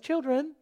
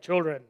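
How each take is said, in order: First: The word is said in a lighter voice. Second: The word is said in a deep voice. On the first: The speaker calls it wrong. "Probably not like that" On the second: The speaker calls it right. "very masculine voice"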